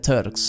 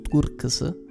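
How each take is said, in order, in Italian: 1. Si pronuncia all'inglese. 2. Si pronuncia all'italiana. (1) "La pronuncia inglese sarebbe Turks" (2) "ma insomma sempre detto Turks"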